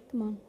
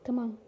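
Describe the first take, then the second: No difference in how they are said.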